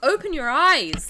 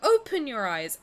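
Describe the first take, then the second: First: The stress falls on the word eyes. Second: The stress falls on the word open. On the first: The speaker calls it right. "More emphasis on eyes than open" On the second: The speaker calls it wrong. "they go"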